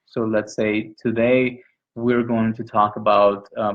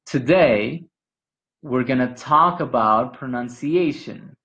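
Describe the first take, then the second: First: Said in the usual way. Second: Today, we're gonna talk about pronunciation in one unbroken flow; smooth connected phrasing. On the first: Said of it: "you will hear something like this". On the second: Shown as a demonstration. Teacher showing English linking to a Spanish speaker, smoothly. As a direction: keep the voice vibrating through every word. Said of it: "There's not a break in the vibration".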